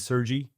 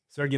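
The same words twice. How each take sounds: First: The name has an English-style pronunciation. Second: The name has its original native pronunciation. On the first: "many people will call me Sergey" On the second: "that's the way you say it"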